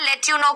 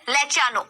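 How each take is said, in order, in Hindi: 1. 'you' पूरा और साफ़ बोला जाता है। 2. 'you' छोटा होकर जल्दी से 'ya' बोला जाता है। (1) "लेट यू नो की जगह" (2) "क्या सुनने को मिलेगा, लेट यू नो की जगह लेट या नो"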